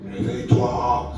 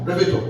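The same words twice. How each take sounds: First: It is said in a dramatic, film-like voice. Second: It is said in a plain, ordinary man's voice. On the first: This is how such voices are portrayed in movies. The speaker calls it wrong. "comme on voit dans des films" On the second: This is how the voice actually sounded. The speaker calls it right. "une voix d'homme. C'est comme un homme qui a parlé"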